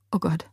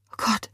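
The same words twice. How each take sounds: First: Soft shaken gasp of horror; quiet stunned horror; shocked. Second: The horror rising in the voice; quiet stunned horror climbing; shocked. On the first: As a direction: barely breathe the words in shock. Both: A narrator's reading. Witnessing woman fall to death.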